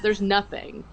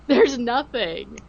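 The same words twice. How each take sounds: First: Laughing dismissal. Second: "There's nothing" said slowly, leaning on There's; slow emphatic denial. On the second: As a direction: drag out There's nothing in disbelief. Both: Retold or imitated.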